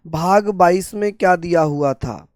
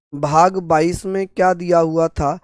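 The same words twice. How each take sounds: The two takes are said the same way.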